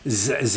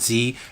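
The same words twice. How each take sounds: First: It is pronounced the Canadian way. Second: It is pronounced the American way. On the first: "we say Z" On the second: "and not Z"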